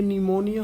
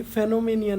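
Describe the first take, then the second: First: निमोनिया starting with a plain n, silent p; the right way, निमोनिया as ni-mo-nia; निमोनिया with no p sound at all; correct pronunciation. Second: फेनोमेनिया with a sounded ph at the start; the wrong way, saying फेनोमेनिया with the p voiced; फेनोमेनिया pronounced phe-no-me-nia; wrong pronunciation. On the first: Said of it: "ये निमोनिया होगा". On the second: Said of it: "ये फेनोमेनिया नहीं होगा". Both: Shown as a demonstration.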